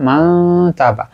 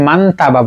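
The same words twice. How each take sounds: First: মা তাবা with the n hidden, nasal glide into তাবা; hidden nun. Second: মান তাবা with the nun said clearly; wrong way, nun pronounced. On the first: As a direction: say মা তাবা, hiding the n sound before তা. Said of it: "গোপন করব". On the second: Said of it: "আমরা এখানে মান তাবা বলবো না". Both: Shown as a demonstration.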